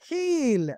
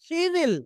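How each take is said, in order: First: The words are joined into one short syllable. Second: Both words are said fully and separately.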